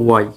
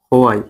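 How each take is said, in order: First: The word begins with a w sound. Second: The word begins with an h sound. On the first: The speaker calls it right. "ও ওই বা ওয়াই" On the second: The speaker calls it wrong. "এটা কি হোয়াই হবে না, H বাদ"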